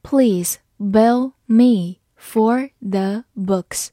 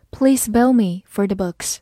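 First: Please bill me for the books, very slow; slow read. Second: Said in the usual way. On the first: Shown as a demonstration. Teacher models the sentence slowly for the class. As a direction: drag out each word of Please bill me for the books. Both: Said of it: "好，慢慢来读".

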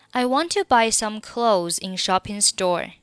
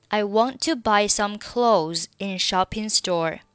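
The two takes are said the same way.

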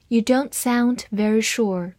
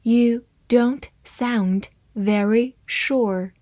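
First: Said in the usual way. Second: Word by word, with clear gaps; slow, deliberate model reading. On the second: Shown as a demonstration. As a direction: read it slowly for learners, separating each word. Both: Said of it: "慢慢来读".

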